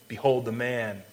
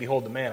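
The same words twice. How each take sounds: First: It is said with wonder and amazement. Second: It is said in a plain, matter-of-fact way.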